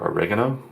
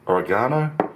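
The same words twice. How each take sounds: First: It is said with an American pronunciation. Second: It is said with a British pronunciation.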